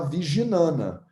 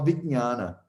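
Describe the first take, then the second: First: An extra vowel splits the middle cluster. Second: The middle cluster has no extra vowel. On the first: "no portuguesão, você pode falar Viginana" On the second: "na maioria dos professores que eu tenho, fala vijnana"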